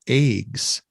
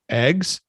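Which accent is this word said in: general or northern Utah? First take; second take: northern Utah; general. First: It is said with a northern Utah accent. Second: It is said without a northern Utah accent.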